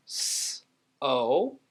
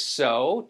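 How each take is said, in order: First: "s, o" as two sounds; long voiceless s, pause, long o; sounded out. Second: Said in the usual way. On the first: Shown as a demonstration. Teacher gives two sounds, sounded out. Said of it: "two sounds". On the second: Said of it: "Next one is so".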